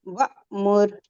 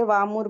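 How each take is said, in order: First: वामुर split by a sudden glottal catch; slow demo of वामुर with an abrupt break; jerked hamza. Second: वामुर said smoothly with no catch; unbroken वामुर, hamza glossed over; soft hamza. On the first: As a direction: stop hard on the hamza, then मुर in वामुर. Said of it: "झटके से पढ़ेंगे". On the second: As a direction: let वामुर run together softly. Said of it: "soft पढ़ लीजिए". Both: Shown as a demonstration.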